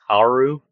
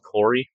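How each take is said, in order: First: The name ends with an 'oo' sound. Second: The name ends with an 'ee' sound. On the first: This is how the written name looks. The speaker calls it wrong. "This looks like it says like Karu" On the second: This is how it is said on the show. The speaker calls it right. "It's pronounced Cory in the show"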